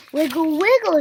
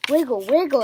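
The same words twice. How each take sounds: First: High, loud command; shouted. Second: Exclaimed. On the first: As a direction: call out the wiggle move. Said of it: "shouted Piggy". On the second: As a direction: repeat the move back. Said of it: "exclaimed Elephant". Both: A narrator's reading.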